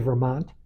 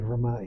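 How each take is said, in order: First: It is said in a non-local pronunciation. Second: It is said in the local Vermont pronunciation. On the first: "I don't say Vermont" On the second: "I say Vermont because that's how they say it in Vermont"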